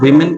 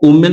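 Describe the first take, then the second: First: The first vowel sounds like 'i'. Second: The first vowel sounds like 'oo'. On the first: The speaker calls it right. "इसको वीमेन कहते हैं" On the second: The speaker calls it wrong. "इसको वुमेन नहीं"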